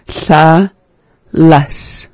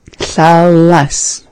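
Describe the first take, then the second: First: Said in the usual way. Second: "Thalas" whispered, voiceless lateral hiss. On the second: Shown as a demonstration. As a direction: breathe "Thalas" with no voice. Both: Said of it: "this is our sa".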